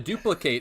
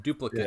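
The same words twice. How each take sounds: First: It is said with the verb pronunciation. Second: It is said with the noun pronunciation. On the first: It names an action. "to duplicate is the verb" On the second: It names a thing. "is the noun"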